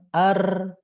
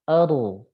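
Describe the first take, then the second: First: The R is trilled heavily at the tongue tip. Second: The R is trilled lightly with reduced vibration. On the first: The speaker calls it wrong. "jangan ar" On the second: The speaker calls it right. "tapi aru"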